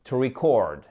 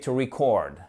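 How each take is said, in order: Both takes have the same delivery.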